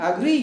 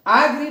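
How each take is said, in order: First: agree with green stressed and rising; short opening, lean on green in agree; stress on last syllable. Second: agree with a high, loud first syllable; wrong first-syllable stress. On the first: (agree में ग्री पर ज़ोर) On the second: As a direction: punch the opening vowel of agree. (Agree में पहले syllable पर ज़ोर) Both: Shown as a demonstration. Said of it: "agree नहीं".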